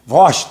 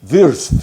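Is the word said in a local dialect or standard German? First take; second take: dialect; standard. First: It is said with local dialect pronunciation. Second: It is said with standard German pronunciation. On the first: "no Wunsweg" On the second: "no alemão"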